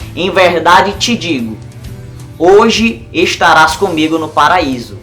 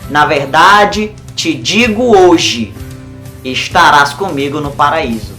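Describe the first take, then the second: First: The pause comes before the word hoje. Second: The pause comes after the word hoje.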